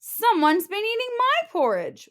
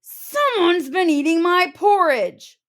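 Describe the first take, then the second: First: High mock wail, stress on my; a hammed-up wail of loss; Mama Bear wailing over her porridge. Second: Loud, higher roar; Papa Bear roaring about his porridge. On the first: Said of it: "wailed Mama Bear". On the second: Acted. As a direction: roar it in outrage. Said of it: "roared Papa Bear".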